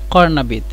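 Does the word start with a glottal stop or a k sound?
k sound. The word starts with a back k sound. This is the standard form, which few people understand here. The speaker calls it wrong.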